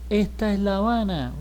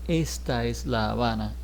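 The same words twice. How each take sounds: First: It is said fast with sounds reduced. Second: Every sound is said fully and carefully. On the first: "She says ... because she's speaking fast" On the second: "she doesn't say very correctly"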